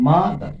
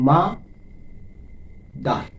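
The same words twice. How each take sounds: First: Said in the usual way. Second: "মা", long pause, "দার"; syllable by syllable. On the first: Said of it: "দুইবার". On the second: Shown as a demonstration. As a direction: split "mother" into two separate beats, মা and দার. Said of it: "দুইবার স্পর্শ করছে হাতে".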